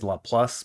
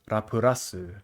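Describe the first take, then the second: First: The name ends with a plus sound. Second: The name has four syllables ending in rasu. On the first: "I think that's the better way of saying it" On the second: "In Japanese"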